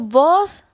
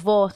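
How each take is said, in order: First: The final s is clearly pronounced. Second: The final s is dropped. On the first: "Utilizamos vos" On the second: "pero realmente decimos vos. Los nicaragüenses no usamos la S al final"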